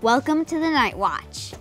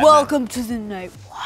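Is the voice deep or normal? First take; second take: normal; deep. First: It is said in a normal voice. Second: It is said in a deep Batman voice.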